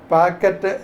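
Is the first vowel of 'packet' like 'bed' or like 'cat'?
cat. The first vowel is open, like in 'cat'. This is how many people in one region say it. "ഇവിടെ തിരുവനന്തപുരത്ത് പാക്കറ്റ് എന്ന് തന്നെ എന്താ പല ആൾ ആളുകളും പറയും"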